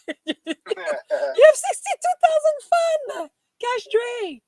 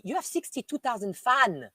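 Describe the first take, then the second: First: Very high, loud, slow shriek with laughter; astonished squeal. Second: Said in the usual way. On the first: Real, not acted. Streamer to Cash Dre about the fans, astonished laughing shriek.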